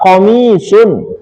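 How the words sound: The word begins with a k sound. This is the original form of the word. "Dari kata-kata komisun"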